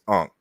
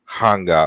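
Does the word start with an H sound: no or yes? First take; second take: no; yes. First: It starts with a vowel, no H sound. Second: It starts with an H sound, two syllables. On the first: This is the common modern pronunciation. "we pronounce it as Ankh" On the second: This is closer to the ancient Egyptian pronunciation. "but it's more like Hanga or Henga"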